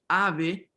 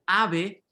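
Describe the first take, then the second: Both takes have the same delivery.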